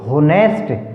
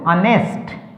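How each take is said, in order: First: The word starts with an h sound. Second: The word starts with a vowel sound. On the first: The speaker calls it wrong. "अगर हम इसको एच को बोलेंगे तो क्या sound निकलेगी" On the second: The speaker calls it right. "होनेस्ट नहीं बोलना इसको"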